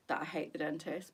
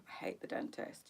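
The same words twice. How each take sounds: First: Said in the usual way. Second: Breathy whisper. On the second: Real, not acted. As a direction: whisper the dread. Dentist dread, said then repeated.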